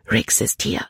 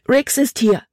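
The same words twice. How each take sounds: First: Hurried warning. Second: High, urgent cry of alarm; frightened exclamation. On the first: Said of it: "sagte Libby schnell". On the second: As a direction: blurt the warning high and breathless with fear. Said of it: "rief sie aus". („Riggs ist hier“ hoch und ängstlich ausgerufen) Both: A narrator's reading.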